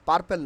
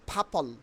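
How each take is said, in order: First: The first p is plain, without a puff. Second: The first p is aspirated, with a puff. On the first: The speaker calls it wrong. "পার্পেল না" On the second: The speaker calls it right. "এর উচ্চারণ হবে ফাপল"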